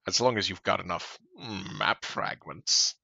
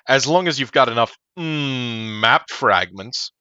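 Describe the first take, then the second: First: A put-on spider character voice is used. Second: A put-on cartoon merchant voice is used.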